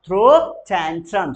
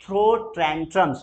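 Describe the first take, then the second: First: Very slow and louder, throw stressed; slow loud drill; very slow repeat. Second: Very slow, throw stressed; slow drill; very slow model. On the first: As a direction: stretch it out for the class. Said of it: "बोलेंगे जरा". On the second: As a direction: stretch both words. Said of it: "throw भी बोल सकते". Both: Shown as a demonstration.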